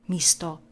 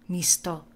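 No difference in how they are said.

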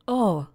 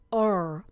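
First: The final r sound is dropped. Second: The final r sound is pronounced.

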